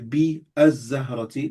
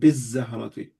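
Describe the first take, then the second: First: The two words are said with a separate vowel between. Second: The alif is dropped and the words run together. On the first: "so you say be az-zahrati, that's fine" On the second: "We wouldn't pronounce the alif"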